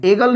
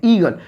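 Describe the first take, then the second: First: एगल opening on an ay-like e; एगल with e in place of ee; wrong vowel. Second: ईगल opening on a long ee; ईगल with the double vowel read as ee; correct vowel. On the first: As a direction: say एगल with e, as the mistaken reading. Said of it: "एगल नहीं बोलते हैं". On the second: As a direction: say ईगल with ee, not e. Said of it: "यहाँ पर ईगल बोलते हैं". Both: Shown as a demonstration.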